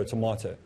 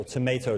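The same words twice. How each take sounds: First: "tomato" as to-MAH-toe; broad A variant. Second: "tomato" as to-MAY-toe; long A variant. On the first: Teacher offering interchangeable forms, "tomato" said to-MAH-toe. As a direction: say "tomato" with an "ah" middle. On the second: Teacher offering interchangeable forms, "tomato" said to-MAY-toe. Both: Shown as a demonstration. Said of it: "Use them interchangeably".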